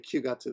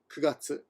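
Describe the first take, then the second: First: The first syllable is kyu, with a y-glide. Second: The first syllable is ku, without a glide. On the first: The speaker calls it wrong. "they don't say Kyugatsu" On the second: The speaker calls it right. "they say ku, Kugatsu"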